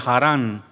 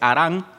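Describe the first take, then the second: First: The opening H is sounded aloud. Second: The opening H is silent. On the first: This is the English way of saying the name. "en inglés di, diría Harán" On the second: This is the Spanish way of saying the name. "como la H es muda, como en español se dice Harán"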